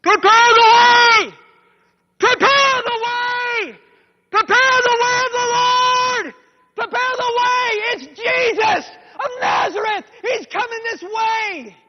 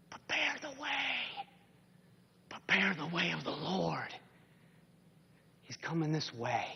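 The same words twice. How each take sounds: First: Very high, slow, full-throated shout; screaming and yelling. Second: Heard in the heart. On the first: Man running toward Jericho heralds Jesus, screaming. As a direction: cry it out from far down the road. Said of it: "he's screaming and yelling". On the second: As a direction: let the call sink in like a memory. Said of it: "with his ears and with his heart". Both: Acted.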